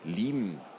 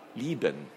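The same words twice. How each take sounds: First: The b sound is swallowed and barely heard. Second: The b sound is clearly pronounced.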